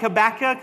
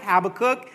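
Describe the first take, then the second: First: "Habakkuk" said as "huh-BACK-uk"; middle-stressed Habakkuk. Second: "Habakkuk" said as "HAB-uh-kook"; first-stressed Habakkuk. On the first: Pastor comparing two accepted ways, middle-stressed Habakkuk. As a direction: stress the second syllable of "Habakkuk". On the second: Pastor comparing two accepted ways, first-stressed Habakkuk. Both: Shown as a demonstration. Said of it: "one and the same".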